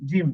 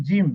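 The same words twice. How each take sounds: No difference in how they are said.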